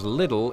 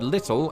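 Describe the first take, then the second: First: The middle consonant is a soft D-like flap. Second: The middle consonant is a crisp T sound.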